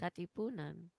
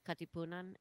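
First: The word is said slowly. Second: The word is said at normal speed.

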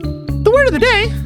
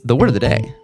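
First: It is said in a raised, high-pitched voice. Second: It is said in a normal speaking voice.

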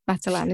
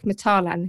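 First: The name is said in a plain, everyday way. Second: The name is said in a posh-sounding way. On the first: This is the usual pronunciation. "instead of Matalan" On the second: This is the fancier alternative pronunciation. "That's like Matalan instead of"

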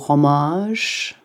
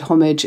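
First: It is said with a French accent. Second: It is said with an English accent.

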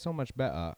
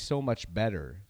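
First: The t in 'better' is dropped, British style. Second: The t in 'better' is clearly pronounced.

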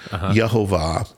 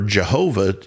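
First: The word begins with a Y sound. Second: The word begins with a J sound. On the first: The speaker calls it right. "So that J was a Y sound" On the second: The speaker calls it wrong. "it was never Jehovah in the beginning anyway"

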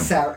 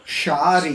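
First: The name is said with English pronunciation. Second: The name is said with Croatian pronunciation. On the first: "go back to English spelling" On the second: "The Croatian pronunciation is Shadić"

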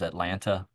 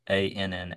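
First: The word is said with every sound fully pronounced. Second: The word is said with its middle sounds reduced. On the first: The speaker calls it wrong. "Anybody says Atlanta, that's not the town I grew up in" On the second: The speaker calls it right. "is probably the better pronunciation of that word"

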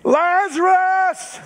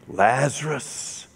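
First: The name is called out loudly. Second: The name is called fairly softly.

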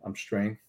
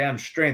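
First: It is said flatly and hesitantly. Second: It is said forcefully, with tensed energy.

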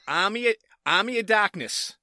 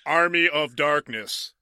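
First: It is said in a Massachusetts accent. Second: It is said in a neutral accent. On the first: "I said it first in my Massachusetts accent" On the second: "Let me say it clearly now"

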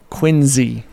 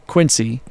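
First: The middle consonant is a Z sound. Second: The middle consonant is an S sound. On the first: "They pronounce it Quincy with a Z" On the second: "Quincy is what I would say"

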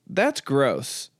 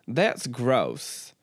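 First: It is said in the speaker's plain accent. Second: It is said in a Southern accent.

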